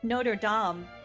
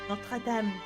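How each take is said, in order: First: It is said with an American accent. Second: It is said with an imitated French accent.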